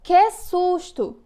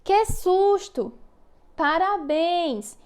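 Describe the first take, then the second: First: High, louder, very slow "Que susto!" with a fright; exclaiming demo. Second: High, slow, stretched exclamation on "Que susto! Parabéns!"; exclaiming demo. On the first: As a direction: stretch out "Que susto!" like a startled child. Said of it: "Na frase". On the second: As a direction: act out the fright and joy for the class, slowly. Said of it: "Por exemplo". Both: Shown as a demonstration.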